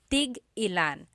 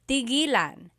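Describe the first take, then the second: First: A glottal stop breaks the word after tig. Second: The word flows smoothly without a glottal stop. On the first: It asks how many of each. "you have to have that glottal stop" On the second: It means to stop. "When there's no hyphen"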